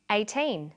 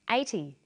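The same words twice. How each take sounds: First: Put-on EIGHTEEN with a long teen and clear final N; minimal-pair demo. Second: EIGHTY with a short, light -ty; minimal-pair demo. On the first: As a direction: say EIGHTEEN carefully, holding the teen. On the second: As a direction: say EIGHTY carefully, first syllable strong. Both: Shown as a demonstration. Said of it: "Now you try these ones".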